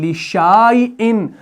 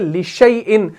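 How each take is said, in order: First: A long 'a' vowel is sounded after the 'sh'. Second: No long 'a' vowel is sounded after the 'sh'. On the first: The speaker calls it wrong. "वरना ये बन जाएगा लिशाइन" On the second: The speaker calls it right. "हम पढ़ते हैं लिशैइन"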